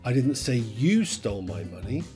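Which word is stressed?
you. The word "you" is stressed. Someone else stole it. "Someone else stole it"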